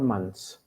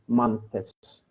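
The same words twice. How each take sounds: First: The th sound is dropped from the word. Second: The th sound is clearly pronounced. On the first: The speaker calls it right. "we simply say clothes or months" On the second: The speaker calls it wrong. "We do not say months or clothes"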